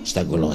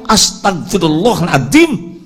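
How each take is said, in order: First: It is said mechanically, without feeling. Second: It is said in an annoyed, irritated tone.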